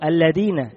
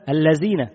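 First: The consonant is said as a d sound. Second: The consonant is said as a z sound. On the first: "بالدال" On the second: "بالزاي"

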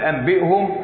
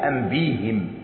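First: The final pronoun is said with a u vowel. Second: The final pronoun is said with an i vowel. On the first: The original vowel of the pronoun is kept. "فاللي عمل أنبئهم الأصل الهاء مضمومة" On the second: The vowel follows the preceding y sound. "البه مكسورة والياه موجودة. يبقى نتبع الياء الكسرة"

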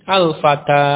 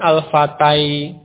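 First: The word ends in a long 'a' vowel. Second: The word ends in an 'ai' sound. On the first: The final letter is read as alif. The speaker calls it right. "Dia dibaca sebagai tanda panjang dari fathah yang sebelumnya" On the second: The final letter is read as the letter ya. The speaker calls it wrong. "Kalau itu ya, ya dibaca ya al-fatai"

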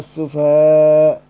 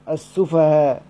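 First: The final long vowel is held moderately long. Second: The final long vowel is held briefly. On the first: "وإما أنا أتركها على حالها" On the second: "إما أن أحذفها يبقى صير عندي ألف واحدة، فأقرأ بالكسر"

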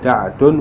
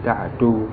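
First: The name ends with an added n sound. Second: The name ends on a vowel, without n. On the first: "boleh ditanwin" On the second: "boleh tidak ditanwin"

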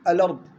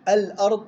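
First: The glottal stop is dropped, its vowel moved back. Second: The glottal stop after the article is pronounced.

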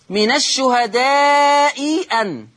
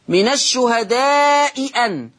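The two takes are said the same way.

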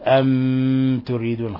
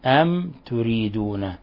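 First: The m is pressed hard and held. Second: The m is pronounced clearly and lightly. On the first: The speaker calls it wrong. "أن تضغط على الميم، أن تقول أم تريدون خطأ" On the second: The speaker calls it right. "الحكم التجويدي إظهار شفوي"

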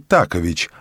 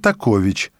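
First: The stress is not on the second syllable. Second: The stress is on the second syllable. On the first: The speaker calls it wrong. "Вы говорите «Такович»" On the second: The speaker calls it right. "Ударение на 2-м слоге"

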